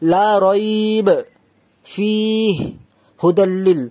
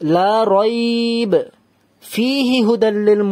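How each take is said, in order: First: It pauses after rayb and after fih. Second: It pauses only after rayb. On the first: The speaker calls it wrong. "আমি এখানেও থামলাম, এখানেও থামলাম, তবুও ভুল হবে" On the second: The speaker calls it right. "রাইব এখানে থামলাম, ... এখানে তাহলে থামলাম না"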